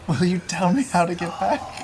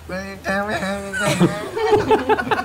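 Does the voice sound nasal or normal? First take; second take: normal; nasal. First: It is said in a normal voice. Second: It is said with a pinched, nasal voice.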